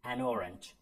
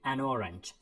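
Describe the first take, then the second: No difference in how they are said.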